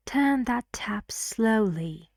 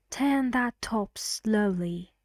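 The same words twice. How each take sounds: First: "tap" with an open front a vowel; measured model sentence, "tap" rhyming with "map"; minimal-pair demo. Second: "top" with an open back o vowel; measured model sentence, "top" rhyming with "mop"; minimal-pair demo. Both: Shown as a demonstration. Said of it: "match it to one of the pairs".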